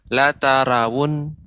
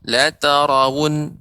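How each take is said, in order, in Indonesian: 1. Bunyi r ini tipis. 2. Bunyi r ini tebal. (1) "Jangan sampai" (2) "Ro ini juga harus tebal"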